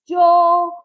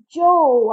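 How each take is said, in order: First: A louder, higher call across the water; second, stronger shout for Joe. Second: Shouted. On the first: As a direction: call out again, harder, to a lost brother. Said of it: "I shouted again". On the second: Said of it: "I shouted". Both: A narrator's reading.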